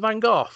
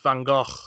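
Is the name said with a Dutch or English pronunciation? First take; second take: English; Dutch. First: The name is said with an English pronunciation. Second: The name is said with a Dutch pronunciation. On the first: The speaker calls it wrong. "don't you mean Vincent van Gogh?" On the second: The speaker calls it right. "no, it's Van Gogh"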